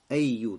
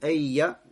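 First: The word ends with a 'u' vowel. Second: The word ends with an 'a' vowel. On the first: The word is in the nominative case as a subject. "с даммой" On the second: The word is in the accusative case as a time adverbial. "фатха в конце"

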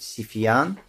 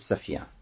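First: The first vowel is i. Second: The first vowel is o. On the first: "можно говорить Сифьян" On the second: "можно говорить Софьян"

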